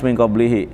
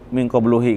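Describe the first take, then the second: First: The vowel after qabl is i. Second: The vowel after qabl is u. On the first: The speaker calls it right. "harus min qablihi" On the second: The speaker calls it wrong. "nggak bisa"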